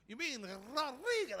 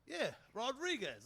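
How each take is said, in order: First: "Rodriguez" corrected with a ripping trilled R; imitated Spanish correction, trilling "Rodriguez"; rolled-R Rodriguez. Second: Said in the usual way. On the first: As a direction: roll the R hard on "Rodriguez". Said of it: "Like, ripping the tongue". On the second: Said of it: "just my Brooklyn accent".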